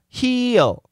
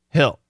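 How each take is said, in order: First: The word is said with two syllables. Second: The word is said with one syllable. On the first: "Two syllables" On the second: "But almost always hill"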